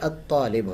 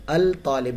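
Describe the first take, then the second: First: The L merges into a doubled t sound. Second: The L is clearly pronounced before t. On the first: The speaker calls it right. "बल्कि अत्तालिब होता है" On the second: The speaker calls it wrong. "अल तालिब नहीं होता"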